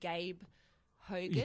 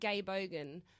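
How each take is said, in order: First: It is said slowly and clearly. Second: It is said quickly, words run together.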